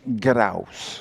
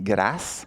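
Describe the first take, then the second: First: The word is said with a Quebec French accent. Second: The word is said with a France French accent. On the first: "ici au Québec, on dit grâce" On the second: "En France, on dit grâce"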